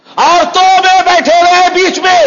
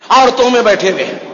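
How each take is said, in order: First: High, loud preacher's outcry; outraged shout. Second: Said in the usual way. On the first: Real, not acted. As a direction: repeat it as a scandalized full-voice shout. Indignant repeat, denouncing from pulpit.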